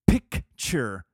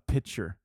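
First: It sounds like the word picture. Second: It sounds like the word pitcher. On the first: The speaker calls it right. "It's a picture" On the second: The speaker calls it wrong. "I get mad when my dad says a pitcher. It's not a pitcher"

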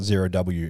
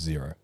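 First: The name ends with a spoken letter W. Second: The name ends without any W sound. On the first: The speaker calls it wrong. "It's not Zero W" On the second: The speaker calls it right. "it's just Zero, even with the W on the end"

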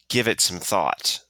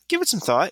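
First: It is said darkly, like a stern command. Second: It is said lightly, like a casual suggestion. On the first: "like some kind of dark order" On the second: "It was not like that"

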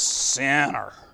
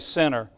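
First: The word is said in an exaggerated, pious voice. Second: The word is said in a plain, ordinary voice. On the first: A self-righteous person says it. "You got a special pronunciation" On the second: An ordinary person says it. "you don't just say sinner"

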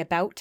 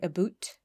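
First: The vowel sounds like the one in 'cow'. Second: The vowel sounds like the one in 'boot'. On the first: "when I say about" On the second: "that's very Eastern Canada"

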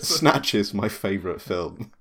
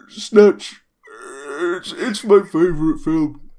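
First: It is said in his normal voice. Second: It is said in a put-on bear voice.

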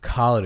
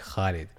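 First: It begins with a plain k sound. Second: It begins with a throaty kh sound. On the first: The speaker calls it wrong. "If it was Khaled, it'd just be a K" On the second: The speaker calls it right. "It's actually Khaled. That's why there's an H there"

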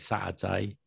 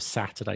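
First: The middle t is replaced by a glottal stop. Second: The middle t is pronounced as a clear t. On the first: "You have like glottal stops where you say" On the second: "Instead of Saturday"

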